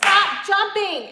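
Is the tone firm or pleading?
firm. It is said sharply, in a commanding tone. The dog is told to stop right now. The speaker calls it right. "you need to be like"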